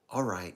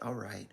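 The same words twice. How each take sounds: First: It sounds confident, like confirming something. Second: It sounds resigned, like giving in. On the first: The speaker is confirming that the message got through. "now that I think I have you, it's that kind of all right" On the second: The speaker is giving in and accepting. "kind of like, okay, I submit"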